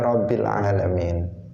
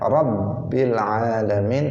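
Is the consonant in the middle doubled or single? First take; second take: single; doubled. First: The middle consonant is single and short. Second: The middle consonant is doubled and held long. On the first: The speaker calls it wrong. "tidak boleh dibaca" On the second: The speaker calls it right. "itu harus dibaca"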